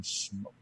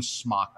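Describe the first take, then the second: First: "Smoke" with a long o, rhymes with broke; soft "Smoke" with a long o vowel; pronounced "Smoke". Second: "Smock" with a short o, rhymes with clock; "Smock" said like the word for an artist's overall; pronounced "Smock". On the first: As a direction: say "Smoke" like what rises from a fire. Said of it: "I call them Smoke". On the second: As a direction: say "Smock" with a short open vowel. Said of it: "I don't call them Smock". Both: Shown as a demonstration.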